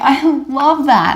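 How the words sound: It is said in a warm, sincere tone. People believe the speaker. The speaker calls it right. "and people believe you"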